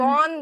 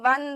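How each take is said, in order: First: The vowel sounds like the 'o' in 'on'. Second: The vowel sounds like the 'u' in 'sun'. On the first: The speaker calls it wrong. "वॉन जिसे आप लोग बोलते होगे ... नहीं" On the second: The speaker calls it right. "He वन the match होगा"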